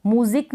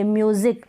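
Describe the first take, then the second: First: म्यूजिक said as muzik, no य sound; wrong pronunciation. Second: म्यूजिक with a clear य glide before the ऊ; correct pronunciation. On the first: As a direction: drop the y glide: म्यूजिक as a plain मू. (म्यूजिक को बिना य के, मूज़िक जैसा) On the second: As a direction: say म्यूजिक as myoozik, y sound in front. (म्यूजिक में म्यू की य वाली आवाज़ के साथ) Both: Shown as a demonstration. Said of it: "म्यूजिक नहीं बोलेंगे".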